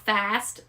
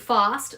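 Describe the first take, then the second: First: The word is said in an American accent. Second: The word is said in an Australian accent. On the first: The speaker calls it wrong. "not fast" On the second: The speaker calls it right. "I say fast"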